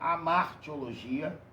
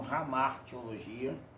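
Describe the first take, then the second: First: The word begins directly with a vowel. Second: The word begins with an h-like breathy sound.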